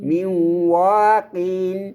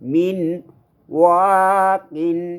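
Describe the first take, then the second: First: The n blends into a doubled w sound. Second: The n is clearly pronounced before the w. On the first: The speaker calls it right. "কয়ে সহজ হয়" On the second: The speaker calls it wrong. "এমনি যদি কইতাম একটু কঠ- কঠিন লাগে"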